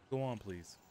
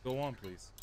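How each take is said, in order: Both takes have the same delivery.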